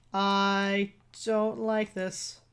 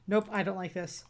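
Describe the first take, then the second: First: Stretched very slow, each word dragged; drawn-out dread. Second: Said in the usual way. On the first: Real, not acted. Player repeating it to the doctor, drawn out slowly. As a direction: drag the words out in dread.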